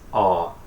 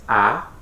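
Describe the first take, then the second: First: The vowel sounds like the one in aunt. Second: The vowel sounds like the one in apple. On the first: "the sound here is a, aunt" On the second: "The sound here is A, apple"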